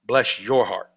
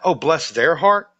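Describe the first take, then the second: First: "bless YOUR heart", with a falling finish; stress on YOUR. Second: "bless THEIR heart", drawn out slowly; slow, lingering "Oh, bless THEIR heart"; contrasting wrong version. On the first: Storyteller demonstrates the Southern insult, stress on YOUR. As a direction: land on YOUR, then let "heart" drop. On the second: Storyteller shows the version that isn't the insult, slow and drawn out. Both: Shown as a demonstration. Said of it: "Not, "Oh, bless their heart".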